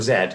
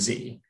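First: The letter is said the British way, zed. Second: The letter is said the American way, zee.

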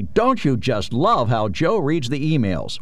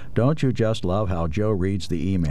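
First: It is read in a lively, excited voice. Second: It is read in a flat, even voice. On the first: "Or I could read it excitedly" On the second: "I can read this flat"

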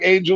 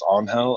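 First: The name is said as the English word angel. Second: The name is said as Spanish, sounding like on-hell. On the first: "it looks like Angel" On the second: "if you pronounce it like the way it is in its original"

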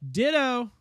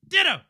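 First: It is said calmly at normal volume. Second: It is yelled loudly and excitedly.

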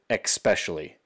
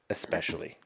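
First: The word begins with an 'ex' sound. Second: The word begins with an 'ess' sound. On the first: The speaker calls it wrong. "when they also say especially instead of" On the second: The speaker calls it right. "the correct way to say it"

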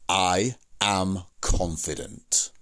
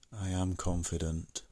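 First: It is said firmly, with confident feeling. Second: It is said flatly, without confidence or feeling. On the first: The manner matches the words. The speaker calls it right. "Say it like that" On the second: The manner contradicts the words. The speaker calls it wrong. "You wouldn't say, "I am confident," like that, because the words are completely incongruent with how you're saying it"

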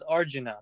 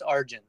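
First: The name ends with an added vowel sound. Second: The name ends with a consonant sound. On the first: This is the translated Western form. The speaker calls it wrong. "they translate it as Arjuna. They put an A at the end" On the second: This is the original form of the name. The speaker calls it right. "but it's just Arjun"

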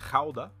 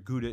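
First: It is said with a Dutch pronunciation. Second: It is said with an American English pronunciation. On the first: This is how the place itself is named locally. "The region or the place in the Netherlands is actually pronounced Gouda" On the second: This is how Americans say the cheese name. "Gouda is the American pronunciation of this"

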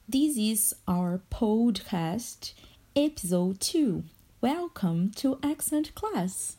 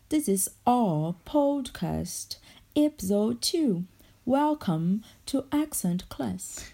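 First: It is said in an American accent. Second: It is said in a British accent.

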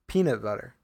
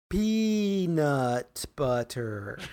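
First: The phrase is said quickly in a casual list. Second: The phrase is said slowly with clear T sounds. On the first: "it's just because I'm saying it faster" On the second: "let me say it in slow motion for you right now"

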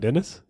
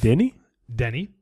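First: The name ends with an s sound. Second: The name ends without an s sound. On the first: The speaker calls it wrong. "It's not Dennis" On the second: The speaker calls it right. "It's not Dennis?"

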